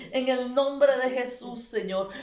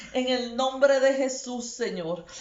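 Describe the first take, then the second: Both takes have the same delivery.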